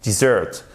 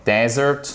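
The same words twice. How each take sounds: First: Dessert said di-ZERT, first vowel weak; short unstressed I, then stress the end of Dessert. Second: Desert said DEH-zert, first syllable stressed; clear, stressed DE in Desert; first E as open E. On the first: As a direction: say Dessert with a quick DI and strong ZERT. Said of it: "le E se prononce comme un I court". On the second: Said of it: "il se prononce comme un E". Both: Shown as a demonstration.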